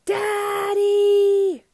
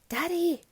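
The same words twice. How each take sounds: First: It is yelled as loud as possible. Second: It is said very quietly.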